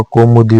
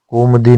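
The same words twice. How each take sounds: First: कौमुदी with u after m; correct form. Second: कोमदी without u; wrong form. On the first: Teacher giving the correction, कौमुदी with mu. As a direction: say कौमुदी as kau-mu-di. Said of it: "होता है". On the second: Teacher showing learners the mistake, कोमदी in two beats. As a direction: say कोमदी as kom-di. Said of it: "नहीं होता". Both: Shown as a demonstration.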